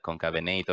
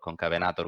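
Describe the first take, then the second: First: The name is said in an English-style pronunciation. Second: The name is said in a Latin-style pronunciation.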